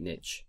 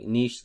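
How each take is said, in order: First: "niche" with short i and tch; niche as "nitch". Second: "niche" as "neesh", long ee; French-style niche. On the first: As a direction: say "niche" to rhyme with witch. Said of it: "way of saying niche". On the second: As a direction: say "niche" to rhyme with leash. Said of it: "the douchey way of saying". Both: Shown as a demonstration.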